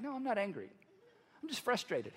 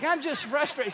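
First: Said in the usual way. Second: Higher, louder mock protest; heated protest. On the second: Client protesting to his counselor, heated retold protest. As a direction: insist on it with raised voice.

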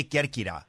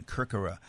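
First: Kerkyra said the Greek way, "KER-kee-da" with a tapped r; Greek pronunciation. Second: Kerkyra said "KUR-kur-uh", lower and softer; bland American pronunciation. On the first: Guest answering how it's pronounced, Greek pronunciation of Kerkyra. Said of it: "Greeks say Kerkyra". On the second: Guest demonstrating for the host, Kerkyra in bland American pronunciation. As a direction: flatten Kerkyra into American r sounds, understated. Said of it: "a bland American pronunciation". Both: Shown as a demonstration.

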